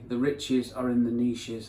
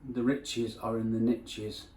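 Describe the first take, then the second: First: Niches is said the British way, not rhyming. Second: Niches is said the American way, rhyming with riches. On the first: The speaker calls it wrong. "In England, you say" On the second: The speaker calls it right. "in America"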